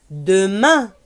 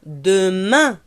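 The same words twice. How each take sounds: The two takes are said the same way.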